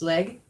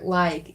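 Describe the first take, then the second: First: The vowel sounds like the one in 'bed'. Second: The vowel sounds like the one in 'bad'. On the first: This is the wood elf form. "the Wood Elven pronunciation is leg" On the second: This is the form used in other dialects. "in um, the other dialects of Sindarin"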